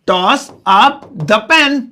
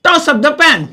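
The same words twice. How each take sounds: First: "toss up the pen" stretched word by word, very slow; very slow repeat. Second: Said in the usual way. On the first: Shown as a demonstration. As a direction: repeat "toss up the pen" very slowly so learners catch it. (बहुत धीरे दोहराते हुए) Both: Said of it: "मैं इसे English में कहूंगा".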